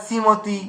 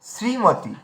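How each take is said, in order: First: শ্রীমতী without the r, as simoti; rejected pronunciation. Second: শ্রীমতী with a clear r, as srimoti; corrected pronunciation. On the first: Teacher showing the slip to avoid, r-less pronunciation. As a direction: drop the র from শ্রীমতী. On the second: Teacher correcting the slip, clear r pronunciation. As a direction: sound the sr at the start of শ্রীমতী. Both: Shown as a demonstration. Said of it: "না".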